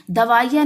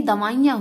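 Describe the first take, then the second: First: दवाइयाँ said "davaaiya", ending without nasal; missing nasal. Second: Said in the usual way. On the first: Shown as a demonstration. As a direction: drop the nasal from the end of दवाइयाँ. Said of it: "नहीं दवाइयाँ होती हैं". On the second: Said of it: "दवाइयाँ होती हैं".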